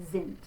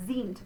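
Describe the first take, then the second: First: "sind" with a short i as in "is"; short open I. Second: "sind" with a long ee, like zeent; long-vowel mistake. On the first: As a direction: say "sind" as zint, vowel short and lax. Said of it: "but sind". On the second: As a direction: say "sind" wrongly with a tense ee. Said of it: "So not sind". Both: Shown as a demonstration.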